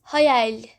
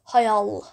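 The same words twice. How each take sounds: First: The word ends with a soft l sound. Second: The word ends with a hard l sound. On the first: The speaker calls it right. "We say hayal" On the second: The speaker calls it wrong. "we don't say hayal"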